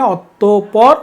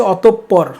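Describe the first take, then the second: First: অতঃপর read out as spelt, ɔtopɔr, single p; অতঃপর with a short single p, as the spelling shows; অতঃপর read as written, ɔtopɔr; spelling form read. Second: অতঃপর said as ɔtopːɔr with a doubled p; teacher shows অতঃপর with a held p sound, ɔtopːɔr; অতঃপর with a lengthened p in the middle; pronunciation demo. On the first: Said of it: "বানানটা শুদ্ধ এখানে অতঃপর". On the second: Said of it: "এটার উচ্চারণ হচ্ছে". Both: Shown as a demonstration.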